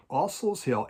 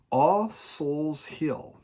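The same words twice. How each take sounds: First: Said in the usual way. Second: Each word drawn out slowly; slow title announcement. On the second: Shown as a demonstration. Announcing the record to viewers, drawn out slowly. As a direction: savor the album title, slow. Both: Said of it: "This is it".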